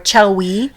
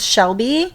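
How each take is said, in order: First: It starts with ch and has a w. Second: It starts with sh and has a b. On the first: The speaker calls it wrong. "or Chelwy" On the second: The speaker calls it right. "they can't pronounce Shelby"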